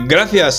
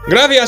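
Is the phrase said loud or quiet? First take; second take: quiet; loud. First: The phrase is said at a quieter volume. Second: The phrase is shouted at a very loud volume. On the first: "¿Cómo ha dicho?" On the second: "Más alto"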